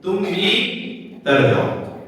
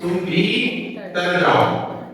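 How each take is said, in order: First: There is a pause after 'भी'. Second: There is a pause after 'भी'.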